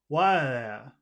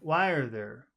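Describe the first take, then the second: First: The R sounds are dropped into vowels. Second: The R sounds are clearly pronounced.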